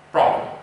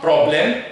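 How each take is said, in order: First: Problem with a weak schwa ending; correct pronunciation. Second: Problem with a full "blem" vowel; wrong pronunciation. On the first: Teacher giving the right problem with a schwa. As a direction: say problem as "prob-luhm". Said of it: "it's problem". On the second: Teacher contrasting the wrong problem, full vowel. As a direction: say problem ending in a clear "lem". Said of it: "So it's not problem". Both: Shown as a demonstration.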